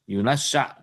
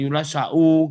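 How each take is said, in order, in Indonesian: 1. Kata ini berhenti tanpa vokal u di akhir. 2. Kata ini diakhiri dengan vokal u. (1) "Berarti yunasya" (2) "kalau wakof jangan yunasya'u gitu nggak boleh"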